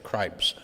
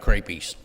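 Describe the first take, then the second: First: The word is said with one syllable. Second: The word is said with two syllables. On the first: The speaker calls it right. "meaning, of course, crepes" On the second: The speaker calls it wrong. "I ate creepies"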